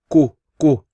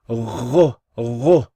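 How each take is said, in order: First: It starts with a plain k sound. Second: It starts with a gargled sound from the throat. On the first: The speaker calls it wrong. "they pronounce this incorrectly and they say ku ku" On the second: The speaker calls it right. "No, ghu ghu"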